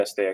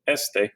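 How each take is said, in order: First: "esté" stressed on the final é; stress on final syllable. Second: "este" stressed on the first e; stress on first syllable. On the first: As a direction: say "esté" with the weight on the last syllable. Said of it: "with the accent mark is very important". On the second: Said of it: "Without that accent mark". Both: Shown as a demonstration.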